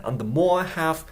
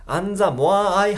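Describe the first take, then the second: First: "And the more have" with the I after "more" shrunk almost to nothing; slow "And the more have", I swallowed into "more"; reduced I. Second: "and the more I have" with every word sounded separately; loud, fully pronounced I in "and the more I have"; wrong separated pronunciation. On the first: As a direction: melt the I away between "more" and "have". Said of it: "愛がもうちっちゃく消えてる". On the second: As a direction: give "I" its own full beat in "and the more I have". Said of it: "じゃないですね". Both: Shown as a demonstration.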